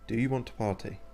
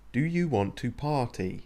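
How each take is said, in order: First: It is said at a normal, quieter volume. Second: It is said loudly, raising the voice.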